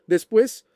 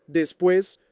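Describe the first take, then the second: First: "Después" repeated higher and louder, rising; "Después" hit hard with a lifted, rising end; emphatic repeat. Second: Said in the usual way. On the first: Retold or imitated. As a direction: push "Después" up high and loud, like a warning. Repeats word, second more insistent.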